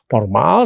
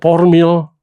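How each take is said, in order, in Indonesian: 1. Kata ini berakhir dengan bunyi 'al'. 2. Kata ini berakhir dengan bunyi 'il'. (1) "yang benar itu dengan akhiran al" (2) "banyak orang mengatakan"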